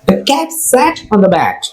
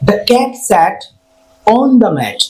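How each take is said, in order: First: There is no pause before the word on. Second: There is a pause before the word on. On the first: The speaker calls it right. "তাহলে আমরা কিভাবে practice করব?" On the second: The speaker calls it wrong. "কখনোই এটাকে এরকম ভাবে বলবো না ... অনের আগে আমরা কোনো গ্যাপ নেবো না"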